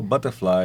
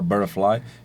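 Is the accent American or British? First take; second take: British; American. First: It is said with a British accent. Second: It is said with an American accent.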